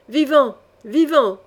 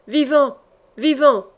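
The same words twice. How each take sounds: First: Bellowed by the gang. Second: Loud, high howl; howling command. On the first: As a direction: roar it as a mob. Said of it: "vociféra la bande". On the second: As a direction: bellow the order across the yard. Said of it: "hurla Courteheuse". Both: Acted.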